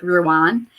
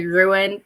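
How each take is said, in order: First: "Ruan" said like roo-AHN; "Ruan", second vowel as in father; corrected name pronunciation. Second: "Ruin" said like ROO-in; "Ruin", second vowel as in win; mistaken name pronunciation. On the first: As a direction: say "Ruan" with an open ah ending. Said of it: "I think it's more like Ruan". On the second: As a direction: say "Ruin" with a short -in ending. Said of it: "I always mispronounce his name". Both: Shown as a demonstration.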